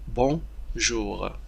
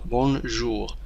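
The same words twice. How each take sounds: First: The N is silent, leaving a nasal vowel. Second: The N sound is pronounced after the vowel. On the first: The speaker calls it right. "N لا ينطق N وإنما نقول bonjour" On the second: The speaker calls it wrong. "هناك الكثير من التلاميذ يقومون بنطق حرف N، يقولون bonjour"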